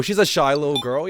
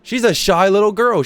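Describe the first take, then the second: First: Said in the usual way. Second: Mock doting. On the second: Shown as a demonstration.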